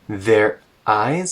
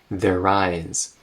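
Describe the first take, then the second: First: A glottal stop separates the two words. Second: The two words run together without a break. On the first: Each word is made clearly audible. "adding a glottal stop there so that you can really hear clearly" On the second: It is ordinary relaxed speech. "In casual speech, you would just say their eyes"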